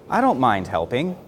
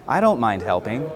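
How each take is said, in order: No difference in how they are said.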